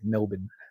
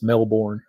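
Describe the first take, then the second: First: It is said with an Australian pronunciation. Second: It is said with an American pronunciation. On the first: "you guys all say" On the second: "A lot of people in the U S pronounce it as"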